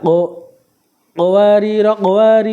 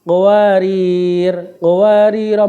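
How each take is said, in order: First: A stop after the second word, ending without vowel. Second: A stop after the first word, its vowel lengthened. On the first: "bila wakof pada kalimat kedua, rok kalimat pertama dibaca qasar pendek dan rok kedua uh, dibaca sukun" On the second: "bila wakof pada kalimat pertama, ro-nya dibaca panjang satu alif"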